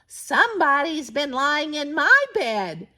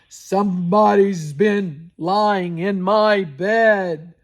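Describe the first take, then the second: First: It is said in a medium voice. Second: It is said in a deep, rough voice.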